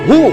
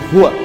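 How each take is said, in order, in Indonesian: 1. Kata itu berakhir setelah 'hu', tanpa 'wa'. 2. Kata itu diucapkan lengkap sebagai 'huwa'. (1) "Anda berhenti pada huwa, maka wanya nggak dibaca" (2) "Asalnya begini, huwa"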